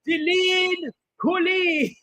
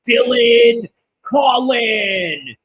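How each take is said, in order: First: The name is said with a French accent. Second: The name is said with an American accent. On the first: The speaker calls it right. "He should have said it with like a French accent" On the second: The speaker calls it wrong. "he says it all like American, like"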